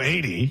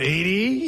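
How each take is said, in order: First: The voice falls at the end. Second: The voice rises at the end.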